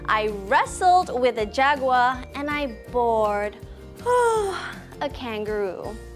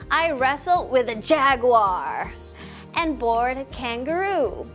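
First: Wrestled and bored carry the strongest stress. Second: Jaguar and kangaroo carry the strongest stress. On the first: It contrasts the two very different actions. "So maybe we should emphasize the words wrestled and bored" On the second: It contrasts the two different animals. "You can also emphasize the word jaguar and kangaroo"

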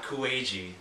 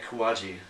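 First: The first syllable has an 'oo' vowel. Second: The first syllable has an 'ah' vowel. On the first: The speaker calls it wrong. "And not Kuwaji" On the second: The speaker calls it right. "Yeah, Kawaji"

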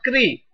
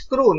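First: The syllable ends in a 'ri' sound. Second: The syllable ends in a 'ru' sound. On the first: The speaker calls it wrong. "not kri. So this one is wrong" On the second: The speaker calls it right. "It's kru"

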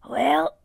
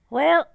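First: The word is said in a put-on manly voice. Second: The word is said in a natural voice. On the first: The speaker calls it wrong. "Don't sound like well, a man" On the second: The speaker calls it right. "Just sound like you saying well"

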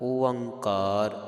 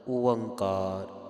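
No difference in how they are said.

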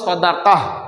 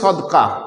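First: The word is said in three syllables. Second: The word is said in two syllables. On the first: The speaker calls it right. "আসল কথাটা হলো সদাকাহ" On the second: The speaker calls it wrong. "অধিকাংশ মানুষই বলে থাকি সদকা"

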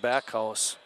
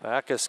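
First: The name is said like back plus house. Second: The name is said as two syllables, Backus. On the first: This is how the speaker would read the spelling. "I'd pronounce that Backhouse" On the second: This is the pronunciation another person uses. "We'll go with Sims' pronunciation"

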